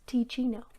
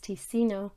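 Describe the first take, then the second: First: The middle syllable sounds like 'chee' in cappuccino. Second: The middle syllable does not sound like 'chee'. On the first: The speaker calls it right. "it is tea as like a cappuccino, so I'm pretty sure it's Ticino" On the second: The speaker calls it wrong. "which I mispronounced in my previous video as Ticino"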